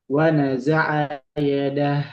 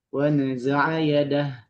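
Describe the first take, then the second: First: The last word ends clipped on a silent h. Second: The same.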